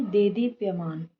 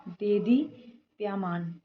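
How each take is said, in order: First: Said in the usual way. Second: Slow देदीप्यमान, broken into parts; mistaken form. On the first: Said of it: "एक मात्रा आएगी". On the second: Shown as a demonstration. Teacher pointing out a vowel-sign error, slow mistaken form. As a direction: draw out the faulty देदीप्यमान. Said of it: "नहीं".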